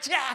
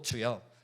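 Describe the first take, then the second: First: It is screamed out in anguished crying. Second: It is said in a calm, composed prayer tone.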